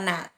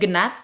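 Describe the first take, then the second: First: The word starts with an N sound. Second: The word starts with a G sound. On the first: The speaker calls it right. "kata nat" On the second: The speaker calls it wrong. "Ini bukan"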